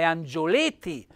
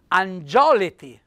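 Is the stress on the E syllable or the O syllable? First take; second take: E syllable; O syllable. First: The stress falls on the closed E syllable. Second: The stress falls on the open O syllable. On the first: The speaker calls it right. "ma è angioleti" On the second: The speaker calls it wrong. "con l'accento aperto sulla O, dovrei dire"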